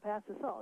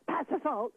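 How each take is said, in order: First: It is said in a calm, non-emotional tone. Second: It is said with an angry, emotional tone. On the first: The speaker calls it right. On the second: The speaker calls it wrong. "You don't say"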